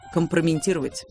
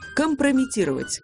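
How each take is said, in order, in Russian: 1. Произносится с лишним n перед t. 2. Произносится без n перед t.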